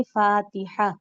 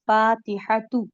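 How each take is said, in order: First: فاتحہ said with a final ہا sound at the pause; ending in h. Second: فاتحہ تو said slowly with the ت sounded; slow demo word. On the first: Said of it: "ہا کی آواز بنائیں". (فاتحہ کو وقف پر ہا کی آواز سے) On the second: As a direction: spell out فاتحہ تو with its ending. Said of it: "بالفرض میں ایک لفظ بتا رہی ہوں". (فاتحہ تو آہستہ، ت کے ساتھ) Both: Shown as a demonstration.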